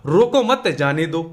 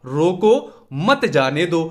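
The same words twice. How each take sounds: First: रोको मत joined, then जाने दो; group it as रोको मत, जाने दो; pause after मत. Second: रोको, then a clear pause before मत जाने दो; pause after रोको. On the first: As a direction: run रोको straight into मत, then break before जाने दो. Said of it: "दूसरी तरीके से भी लिख सकते". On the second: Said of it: "शब्दों का विराम हमने अलग तरीके". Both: Shown as a demonstration.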